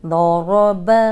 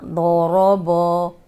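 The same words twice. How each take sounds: First: 'बा' kept light and open as ba after the heavy रॉ; correct light ba. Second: 'बो' made heavy and rounded like bo, the wrong way. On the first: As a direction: say 'बा' thin and clear, not heavy. ('बा' को बारीक और खुला पढ़ना) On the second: ('बो' को मोटा और गोल करके गलत पढ़ना) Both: Shown as a demonstration. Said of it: "ऐसे नहीं पढ़ना".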